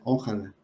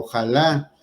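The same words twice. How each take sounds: First: The stress falls before the last syllable. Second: The stress falls on the last syllable. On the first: The speaker calls it wrong. "pero muchos dicen, ... ¿sí? Y está mal" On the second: The speaker calls it right. "lleva acento en la última A ... y yo les remarco"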